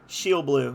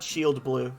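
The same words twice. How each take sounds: First: The D at the end of shield is dropped. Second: The D at the end of shield is pronounced. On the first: The speaker calls it right. "dropping the D" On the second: The speaker calls it wrong. "not Shield Blue"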